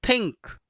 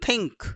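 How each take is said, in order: The two takes are said the same way.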